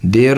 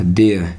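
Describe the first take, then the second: First: "देयर" with final r sounded; Indian-style "देयर"; wrong pronunciation. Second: "देयर" said as "de-uh", no r; r-less "देयर"; correct pronunciation. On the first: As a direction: pronounce the r ending of "देयर". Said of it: "देयर नहीं बोला जाता". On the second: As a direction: drop the final r in "देयर". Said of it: "नहीं बोला जाता". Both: Shown as a demonstration.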